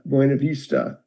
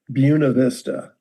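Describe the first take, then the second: First: It is said with a Spanish pronunciation. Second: It is said with a local Iowa pronunciation. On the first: This is how a Spanish speaker would say it. "if you're Spanish, you would say it's" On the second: This is how the people who live there say it. "the people that live there call it"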